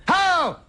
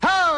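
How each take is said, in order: First: High, sharp mock gasp of a word; a hammed-up reaction to a gross picture; mock disgust. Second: High, sharp mock gasp of a word; a hammed-up reaction to a healthy lung picture; mock disgust. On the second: Same mock reaction repeated. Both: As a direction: yelp it up high in fake shock.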